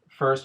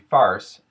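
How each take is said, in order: First: The vowel is the standard er sound. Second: The vowel is an ar sound.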